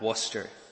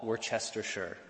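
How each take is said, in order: First: The name is said short, with syllables dropped. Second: The name is said long, with every syllable sounded. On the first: "but is half of the length, if that" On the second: "what I would call Worcestershire"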